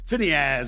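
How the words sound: The name is said with an English pronunciation. "Phinehas, I call him"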